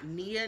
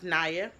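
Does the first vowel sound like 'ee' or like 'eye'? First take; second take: ee; eye. First: The first vowel sounds like 'ee'. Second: The first vowel sounds like 'eye'. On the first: The speaker calls it wrong. "not Nia" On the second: The speaker calls it right. "It's pronounced Naya"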